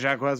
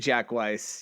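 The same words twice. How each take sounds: First: The name is said in a Cajun accent. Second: The name is said in a plain accent.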